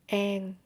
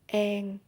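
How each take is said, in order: First: It is said in a Southern Vietnamese accent. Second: The same.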